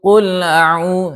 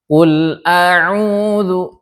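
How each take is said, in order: First: The glottal stop is slurred and barely heard. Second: The glottal stop is pronounced clearly and distinctly. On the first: The speaker calls it wrong. "yang terseret yang enggak jelas" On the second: The speaker calls it right. "tapi kita perjelas"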